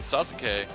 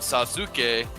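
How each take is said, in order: First: The middle u is dropped, giving two syllables. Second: Every syllable is sounded, including the middle u. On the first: This is how people actually say the name. "they call him Sasuke because that U between the two consonants" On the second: This is how the name is written. "It's spelled Sasuke"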